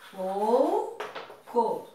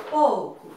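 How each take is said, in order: First: Pouco split with POU drawn out and rising, then a pause; separado em sílabas. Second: Said in the usual way. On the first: Shown as a demonstration. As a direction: stretch the first syllable of Pouco and hold before co. (Pouco silabado, com "pou" alongado) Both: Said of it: "Separe as palavras em sílabas".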